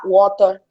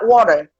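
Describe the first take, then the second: First: The final R is dropped, British style. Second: The final R is pronounced, American style.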